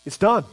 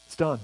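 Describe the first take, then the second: First: Said in the usual way. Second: Quiet final. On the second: Shown as a demonstration.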